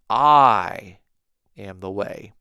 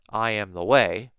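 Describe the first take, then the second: First: The word 'I' is strongly stressed. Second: The word 'I' is not stressed.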